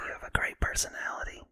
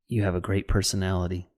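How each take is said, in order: First: It is whispered without a full voice. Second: It is spoken in a full, deep voice.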